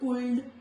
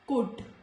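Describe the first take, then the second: First: An L sound is pronounced before the D. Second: No L sound is heard before the D. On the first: The speaker calls it wrong. "not could" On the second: The speaker calls it right. "it is silent"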